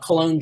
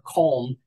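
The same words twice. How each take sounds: First: The name is said in its English form. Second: The name is said in its German form.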